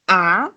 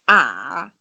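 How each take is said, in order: First: The syllable is said with the second tone. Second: The syllable is said with the third tone. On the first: "the second tone is going to be a" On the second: "the third one is going to be a"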